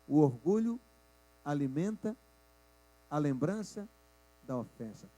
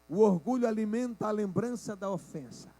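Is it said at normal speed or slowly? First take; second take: slowly; normal speed. First: It is said slowly. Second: It is said at normal speed.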